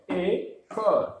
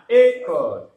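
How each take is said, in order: First: "ايكول" split in two, a gap after the first sound; syllable by syllable. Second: Said in the usual way. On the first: Shown as a demonstration. Teacher models reading for learners, "ايكول" syllable by syllable.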